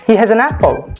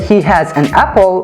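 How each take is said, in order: First: The words run together with linked sounds. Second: Each word is said separately, without linking. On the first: The speaker calls it right. "They say" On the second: The speaker calls it wrong. "Native speakers do not say"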